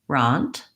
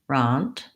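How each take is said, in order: The two takes are said the same way.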